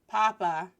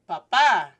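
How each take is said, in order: First: The stress is on the first syllable. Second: The stress is on the second syllable. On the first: It means potato. The speaker calls it wrong. "like papas fritas, french fries" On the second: It means father. The speaker calls it right. "stressing the second A, means father"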